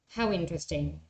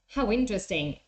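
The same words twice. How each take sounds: First: It is said with a flat, uninterested intonation. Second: It is said with interested, lively intonation. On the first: The listener does not care and seems rude. The speaker calls it wrong. "Or even my tone of voice" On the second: The listener is glad to hear the news. The speaker calls it right. "You might use this other one"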